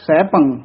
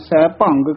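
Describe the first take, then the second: First: The word ends in a nasal with no g. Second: The word ends with an added g sound. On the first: The speaker calls it right. "ਫਿਰ ਬੋਲਣਾ ਹੈ ਸੈਭੰ।" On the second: The speaker calls it wrong. "ਗੱਗਾ ਲਾ ਦਿੰਦੇ ਹਨ, ਸੈਭੰਗ ਕਹਿ ਜਾਂਦੇ ਹਨ। ਇਹ ਤਾਂ ਬਿਲਕੁਲ ਹੀ ਅਸ਼ੁੱਧ ਹੈ।"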